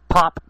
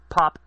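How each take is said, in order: First: The P makes a loud breath pop. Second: The P is soft, with no breath pop. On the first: The speaker calls it wrong. "pointing toward the microphone, of course I'm going to pop my P's" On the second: The speaker calls it right. "Talk at it, like, from the side. Like this... I'm not really popping my P's"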